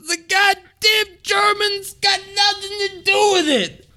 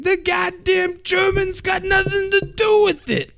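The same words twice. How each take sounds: First: High, shouted angry sheriff imitation; pissed sheriff. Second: High mock sheriff voice, confused; Buford T. Justice. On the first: Angry sheriff in his car, high mock shout. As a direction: yell it furious, driving down the road. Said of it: "He's so pissed". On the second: Sheriff mishearing germane, high blustering imitation. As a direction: bluster like a dim Southern sheriff. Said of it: "And he's like".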